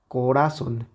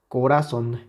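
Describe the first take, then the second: No difference in how they are said.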